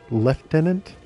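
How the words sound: It is said with an English pronunciation. The speaker calls it right. "With that English accent, shouldn't he be saying lieutenant?"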